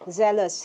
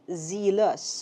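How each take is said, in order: First: The first vowel is short, as in 'zel'. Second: The first vowel is long, as in 'zeal'. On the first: The speaker calls it right. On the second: The speaker calls it wrong. "hindi zealous, which is a little bit tricky if you think about yung root word niya, which is zeal"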